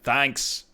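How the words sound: It is said in an Australian accent. "Australia's like thanks"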